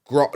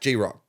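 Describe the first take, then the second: First: The name is said as one single syllable. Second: The name is said as two separate syllables. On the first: The speaker calls it right. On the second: The speaker calls it wrong. "Not G Rock"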